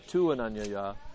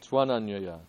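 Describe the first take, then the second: First: The vowels stay apart as two separate words. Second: The words merge, with u turning into v. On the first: The speaker calls it wrong. "to say tu ananyaya is not, doesn't work as well" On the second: The speaker calls it right. "becomes tva before a"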